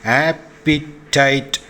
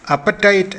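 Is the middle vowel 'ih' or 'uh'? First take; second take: ih; uh. First: The middle vowel sounds like 'ih'. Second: The middle vowel sounds like 'uh'. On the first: The speaker calls it right. "ഉച്ചരിക്കേണ്ടത് ആപ്പിറ്റൈറ്റ് എന്നാണ്" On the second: The speaker calls it wrong. "പൊതുവെ അപ്പറ്റൈറ്റ് എന്നാണ് ഈ വാക്ക് ഉച്ചരിച്ച് കേട്ടിട്ടുള്ളത്"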